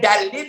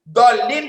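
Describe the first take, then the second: First: The first consonant is a light plain d. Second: The first consonant is heavy and emphatic. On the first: The path of those who are guided. The speaker calls it wrong. "kalau pakai dal" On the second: The path of those who are astray. The speaker calls it right. "Kalau dolin jalan yang sesat"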